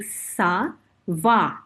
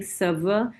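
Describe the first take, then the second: First: Ça va with clear open a sounds, slow; correct ça va. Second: Ça va with weak schwa vowels, sə və; wrong ça va. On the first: Teacher shows correct ça va. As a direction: say ça va carefully. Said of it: "Now note, I'm saying ça va". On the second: Teacher shows mistaken ça va. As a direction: mumble ça va as the wrong version. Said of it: "I'm not saying ça va". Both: Shown as a demonstration.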